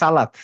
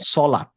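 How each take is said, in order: First: It starts with a plain, light s sound. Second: It starts with a heavy, emphatic s sound. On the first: The speaker calls it wrong. "যেমন আমরা বলি হচ্ছে" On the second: The speaker calls it right. "উচ্চারণ করতে হবে সলাত"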